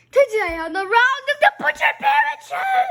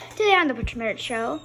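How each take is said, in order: First: High shouted show intro; silly clown. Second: Quick, bright host intro; show host intro. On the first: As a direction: yell the intro like a clown host. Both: Acted.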